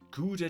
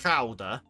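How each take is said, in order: First: It is pronounced with English sounds. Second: It is pronounced with Dutch sounds. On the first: "preparing to be understood by English speakers" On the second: "Not Gouda"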